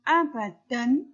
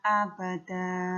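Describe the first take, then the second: First: The word ends with an n sound. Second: The word ends with a long vowel. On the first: "Bagaimana bacaan abadan" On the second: "Ketika dia jatuh di akhir ayat, maka dia menjadi dibaca abada"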